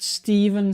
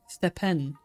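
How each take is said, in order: First: The middle consonant is a V sound. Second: The middle consonant is a P sound. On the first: "we say the P H is a V" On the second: "if you would pronounce it just letter by letter, it would be Stepen"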